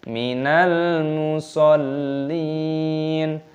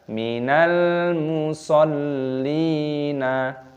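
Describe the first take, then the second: First: The phrase ends on a silent, unvoweled n. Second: The final n is followed by a short vowel. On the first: The speaker calls it right. "harus dimatikan minal musallin" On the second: The speaker calls it wrong. "jangan dibaca minal musallina"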